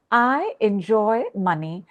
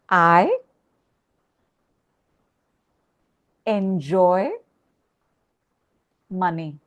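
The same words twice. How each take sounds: First: Said in the usual way. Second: Each word set apart with long pauses; slow, deliberate word by word; slow, spaced affirmation. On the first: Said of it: "Three times with me". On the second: Shown as a demonstration. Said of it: "I want you to say".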